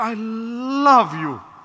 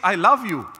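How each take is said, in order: First: It is drawn out with exaggerated, syrupy feeling. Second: It is said plainly, without extra feeling.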